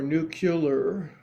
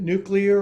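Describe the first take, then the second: First: "nuclear" said slowly as NOO-kyuh-ler; variant pronunciation. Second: "nuclear" said slowly as NOO-klee-er; standard pronunciation. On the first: Yoga teacher asking which is correct, "nuclear" pronounced NOO-kyuh-ler. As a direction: turn "nuclear" into "nucular". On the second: Yoga teacher asking which is correct, "nuclear" pronounced NOO-klee-er. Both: Shown as a demonstration. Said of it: "Is it nuclear or nuclear".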